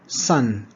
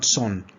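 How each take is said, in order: First: The vowel is the short vowel of cup. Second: The vowel is the rounded vowel of cop. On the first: The speaker calls it right. "the caret sound... as in cup" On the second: The speaker calls it wrong. "not son"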